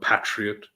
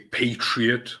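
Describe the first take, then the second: First: It is pronounced the British way. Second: It is pronounced the American way.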